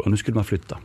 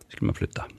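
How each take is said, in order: First: Said in the usual way. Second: Whispered, no voice, much softer; hushed dramatic repeat. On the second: Real, not acted. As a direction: breathe it like an ominous secret. Repeats key line for effect.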